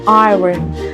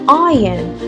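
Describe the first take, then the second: First: The R is pronounced, American style. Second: The R is dropped, British style.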